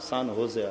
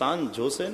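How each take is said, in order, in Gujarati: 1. બીજો શબ્દ H અવાજથી શરૂ થાય છે. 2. બીજો શબ્દ J અવાજથી શરૂ થાય છે. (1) "એમાં સાન હોશે આવે" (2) "સાન જોશે નહીં"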